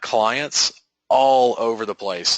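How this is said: It is said with genuine passion and energy. The speaker calls it right. "That's the tonality. Could you hear the passion? Yes"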